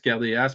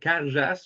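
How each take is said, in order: First: The name is said plainly, as it is spelled. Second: The name is said with a Gaelic-style middle sound. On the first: It is said this way so everyone understands. The speaker calls it wrong. "je dis Cardeas pour qu'on se comprenne" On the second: It is the fancier original Gaelic form. The speaker calls it right. "la bonne prononciation serait peut-être Carchas, que- Carjas"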